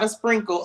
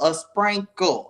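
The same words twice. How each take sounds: First: The word is said with a plain 'i' vowel. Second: The word is said with an 'a' vowel. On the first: It is too small an amount. The speaker calls it wrong. "Not a sprinkle" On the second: It is a generous amount. The speaker calls it right. "S P R A N K L E, a sprinkle"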